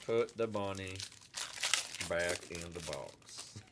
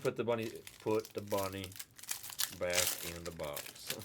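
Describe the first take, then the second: First: Hammed-up southern twang; southern accent. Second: Mock southern twang; southern accent, low and lazy. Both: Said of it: "it was with a southern accent".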